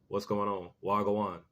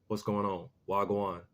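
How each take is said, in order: Both takes have the same delivery.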